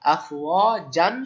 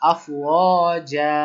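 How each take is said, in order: First: The word ends with an n sound. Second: The word ends with a long a vowel. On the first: The word is read without stopping on it. "আফওয়াজান ছিল" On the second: The reader stops on this word. "থামার ক্ষেত্রে আফওয়াজা"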